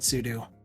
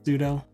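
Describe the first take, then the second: First: The second syllable sounds like the word 'do'. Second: The second syllable does not sound like 'do'. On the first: This is the speaker's own pronunciation. "I pronounce it sudo because it's super user do" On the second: This is how most people say it. "most people pronounce that as sudo"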